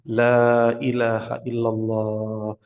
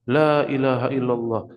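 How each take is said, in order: First: It is said slowly and gently, then a pause. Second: It is said quickly, repeated without a break. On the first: The dying person is given time to follow. The speaker calls it right. "Dengan mentalkin dengan perlahan" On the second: The dying person is given no time to follow. The speaker calls it wrong. "jangan ada orang kan La ilaha illallah, La ilaha illallah, La ilaha illallah terus terus jangan"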